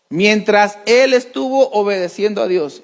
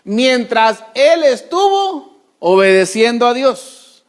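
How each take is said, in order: First: "él" hit firmly, the rest plain; "él" pressed, then a falling close; stress on él. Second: Slow, drawn-out, stretching estuvo; slow emphasis. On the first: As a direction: point at "él" with a firm stress. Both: Shown as a demonstration.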